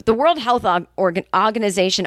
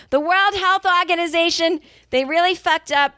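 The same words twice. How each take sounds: First: Said in the usual way. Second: 'Organization' in a heated Boston accent, high and sharp; angry Boston accent. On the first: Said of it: "the Boston accent comes out". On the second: Real, not acted. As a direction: spit out 'World Health Organization' with a fired-up Boston accent. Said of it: "the Boston accent comes out when she's angry".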